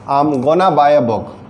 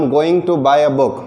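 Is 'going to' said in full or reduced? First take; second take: reduced; full. First: 'Going to' is reduced to 'gonna'. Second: 'Going to' is said as two full words. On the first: "गोइंग टू के बजाय आप बोल दीजिए गोना" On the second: "गोइंग टू हो जाता है गोना"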